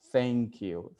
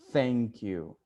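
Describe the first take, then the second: The two takes are said the same way.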